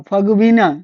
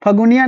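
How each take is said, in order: First: फगुबिना said with every syllable clear; फगुबिना, full and careful, set out for memory; फगुबिना with the bu syllable firmly sounded; correct version. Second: फगुनिया said without the bu syllable; फगुनिया, clipped short, shown as the mistake; फगुनिया with the middle syllable dropped; wrong version. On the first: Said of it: "याद रखिएगा". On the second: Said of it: "फगुनिया नहीं है ये". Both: Shown as a demonstration.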